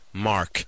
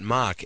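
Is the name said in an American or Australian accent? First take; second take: American; Australian. First: The name is said in an American accent. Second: The name is said in an Australian accent. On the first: "it's impossible to get along unless you put on a slightly American accent" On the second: "his name is not Mark"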